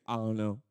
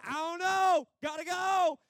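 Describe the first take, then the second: First: Low, mumbled shrug of a reply; bewildered thief. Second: Very high, drawn-out cry; departing spirit calling back. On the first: Thief asked how he got here, bewildered. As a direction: answer dully, no idea. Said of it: "The thief". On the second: Spirit answering the archangel while leaving, hurried high call. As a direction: call back as you get whisked away. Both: Acted.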